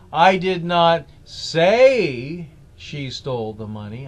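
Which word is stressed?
say. The stress is on "say".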